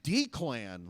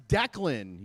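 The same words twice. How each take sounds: First: Declan misread as DEE-klan, drawn out; misread name. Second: Declan said as DECK-lin; corrected name. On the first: Acted. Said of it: "That says Declan, you moron". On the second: Retold or imitated. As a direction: say Declan properly, short "deck" then "lin". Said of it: "My wife's like, That says Declan".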